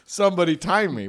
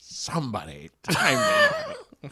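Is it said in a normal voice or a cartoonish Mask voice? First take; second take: normal; Mask voice. First: It is said in his normal voice. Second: It is said in the Mask's cartoonish voice.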